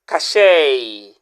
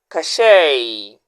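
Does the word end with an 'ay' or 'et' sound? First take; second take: ay; ay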